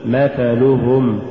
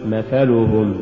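First: Slow مثلهم, each short vowel complete; full vowels. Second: مثلهم with short vowels cut; snatched vowels. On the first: Teacher models correct recitation, مثلهم evenly voweled. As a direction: give each syllable of مثلهم equal room. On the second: Teacher shows crooked reading, مثلهم hurried. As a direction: hurry the syllables of مثلهم. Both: Shown as a demonstration. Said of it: "ولا تقل".

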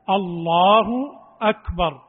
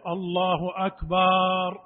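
First: الله أكبر short, firm and loud; correct takbir. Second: الله أكبر with vowels drawn out slowly; wrong stretching. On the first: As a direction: say الله أكبر crisply, no stretching. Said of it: "وإنما يأتي بها هكذا". (الله أكبر بلا مد ولا تمطيط) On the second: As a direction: drag the takbir out too long. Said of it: "لا يقول". (الله أكبر بتمطيط خاطئ) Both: Shown as a demonstration.

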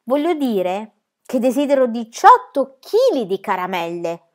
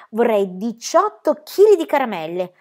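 First: Slow, louder, stressing chili; patient but firm insistence; emphatic correction. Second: Said in the usual way. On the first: Acted. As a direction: spell out diciotto chili di caramelle with weight on chili. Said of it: "Vuoi dire che desideri diciotto caramelle?".

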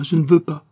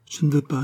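First: The repeat pushed out louder and higher; louder insistent refusal. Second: Said in the usual way. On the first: Acted. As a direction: let the second "je ne veux pas" burst out, pleading. Girl refuses, repeating herself.

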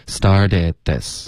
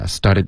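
First: Slow "started this" with longer eh in the last syllables; model lengthened vowels. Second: "started" with the end just a tongue flick; quick "started", second vowel barely there; imitating clipped started. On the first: Shown as a demonstration. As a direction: demonstrate "started this" unhurried. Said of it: "要稍微长一". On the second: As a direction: mimic a too-short last vowel in "started". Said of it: "你现在感觉就舌头弹了一下".

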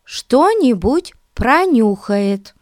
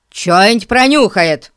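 First: "что-нибудь пронюхает" spelled out slowly and clearly; clear correction. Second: "Чё-нибудь пронюхает" slurred, чё clipped, falling; swallowed words. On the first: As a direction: pronounce "что-нибудь" fully, higher and slower. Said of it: "перевела Дейзи". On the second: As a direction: mumble "Чё-нибудь" as one slurred word. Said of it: "манере Эрна глотать слова". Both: Acted.

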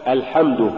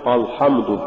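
First: الحمد opening on a thin a; al-hamd with a front a in الحمد; light hamza. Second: الحمد opening on a thick dark a; full-mouthed back a in الحمد; wrongly heavy hamza. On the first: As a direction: keep the first vowel of الحمد light. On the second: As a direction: thicken the first vowel of الحمد. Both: Shown as a demonstration. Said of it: "ولا تقل".

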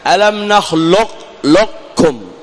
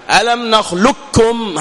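First: Slow نخلق لكم, qaf's emphatic quality kept before the kaf; teacher demonstrating partial idgham; incomplete merge. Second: Slow نخلقكم with the qaf wholly gone into a doubled kaf; the full, clean idgham; teacher giving the accepted full merge; complete merge. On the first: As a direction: let the heavy qaf colour remain. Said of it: "ذهاب المخرج وبقاء الصفة". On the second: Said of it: "هذا الذي عليه العمل". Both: Shown as a demonstration.

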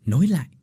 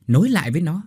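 First: "nối lại" pressed once, moderately; first urging. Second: "nối lại với nó" louder, "lại" rising; stronger repeat. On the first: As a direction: start the push on "nối lại". (nhấn nhẹ "nối lại") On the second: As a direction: push harder on "lại". (nhắc lại "nối lại với nó" to hơn) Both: Acted.

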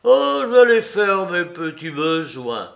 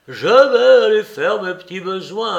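First: Vieux bonhomme un peu fort, content de lui; voix de Soupe. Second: Imitation moqueuse, plus aiguë et plus forte; singe-le comme un gamin espiègle; air de jeune espiègle. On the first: Acted. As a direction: annonce ça comme un gamin. Soupe voiced, annonce ses besoins. (vieil homme fier de son annonce) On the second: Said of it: "avec des airs de jeune espiègle". (Larrier imite Soupe en gamin espiègle)

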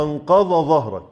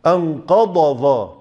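First: أنقض ظهرك with ض and ظ merged into one sound; imitating a common mispronunciation; merged dad and zaa. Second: أنقض ظا slowly, ض and ظ separated; slow corrected demo; distinct letters. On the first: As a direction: say أنقض ظهرك as if both letters were the same ظ. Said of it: "يقول لك إيه". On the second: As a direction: sound أنقض ظا with a clean ض before ظ. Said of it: "فلا بد أن تبين الضاد من الظاء". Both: Shown as a demonstration.

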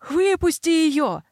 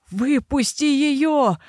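First: High, slow desperate yell. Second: High, drawn-out straining shout; straining yell. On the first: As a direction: scream it out in panic. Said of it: "заорал он". (отчаянный крик) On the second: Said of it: "надрывался Грегор". (надрывный крик) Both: Acted.

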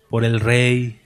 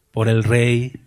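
Both takes have the same delivery.

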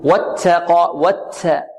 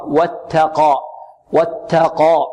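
First: "واتقى" with a hissy ts in place of t; ta mixed with seen. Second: "واتقى" with a clean t, free of any s; slow "واتقى", the ta kept clear of seen; pure soft ta. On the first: Teacher imitating a common mistake, ta mixed with seen. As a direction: blend some s into the ta of "واتقى". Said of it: "نعطيها شيء من السين". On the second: Teacher correcting the hissed ta, pure soft ta. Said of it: "خطأ". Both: Shown as a demonstration.

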